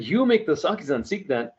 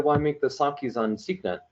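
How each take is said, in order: First: Imitating an amazed uncle, a bit higher; surprised. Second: Said in the usual way. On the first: Uncle surprised to meet the maker of the Sakis, mock amazed question. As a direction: echo it back in disbelief.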